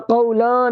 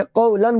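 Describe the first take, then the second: First: क़ौला ending in a long open "aa"; wrong ending. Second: क़ौलन ending in a short "an" with clear n; clear nun. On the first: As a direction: drop the n and stretch the end of क़ौला. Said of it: "यहाँ क़ौला नहीं बोलेंगे". (क़ौला, नून के बिना) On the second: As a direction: close क़ौलन on a distinct n. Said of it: "क़ौलन बोलेंगे". (क़ौलन, नून साफ़ ज़ाहिर करके) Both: Shown as a demonstration.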